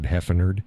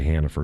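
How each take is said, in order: First: The name is said with altered, mangled vowels. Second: The name is said in its ordinary pronunciation. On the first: "I said Heffenerd" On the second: "I don't say Hannaford"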